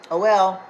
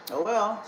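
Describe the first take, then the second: First: Louder, final and falling; loud mocking oh well. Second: Light shrug, tossed off; dismissive oh well. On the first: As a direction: slam it down with scorn. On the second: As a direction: brush it off casually. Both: Real, not acted. Dismissive taunt at abusers.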